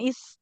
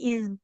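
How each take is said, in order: First: The final consonant is a hissing s sound. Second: The final consonant is a buzzing z-like sound. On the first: The speaker calls it wrong. "bukan is" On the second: The speaker calls it right. "tapi iz"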